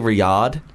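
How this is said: The A vowel is broad and open. This is how others mispronounce the name. The speaker calls it wrong. "Because the A is broad"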